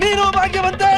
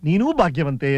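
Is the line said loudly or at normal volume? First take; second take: loudly; normal. First: It is said more loudly. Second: It is said at a normal volume.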